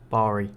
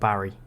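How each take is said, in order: First: It sounds like the place name Bali. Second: It sounds like the English name Barry. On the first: The speaker calls it right. "Like Bali, the place" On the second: The speaker calls it wrong. "not Barry"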